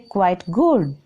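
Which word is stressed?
good. The stress falls on good, not quite.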